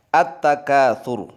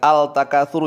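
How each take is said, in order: First: The L merges into a doubled following consonant. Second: The L is clearly pronounced before the consonant. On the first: The speaker calls it right. "lamnya nggak terbaca" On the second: The speaker calls it wrong. "Kalau al-takatsuru salah"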